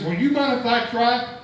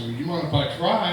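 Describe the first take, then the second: First: Higher and louder, eager and innocent; innocent punchline ask. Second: Said in the usual way. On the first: Retold or imitated. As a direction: ask it brightly like a naive kid. Mike's punchline question to farmer.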